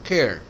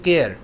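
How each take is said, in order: First: The first k sound has a puff of breath. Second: The first k sound has no breath after it. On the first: The speaker calls it right. "थोड़ा एच है इसमें" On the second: The speaker calls it wrong. "जो गलत होता है"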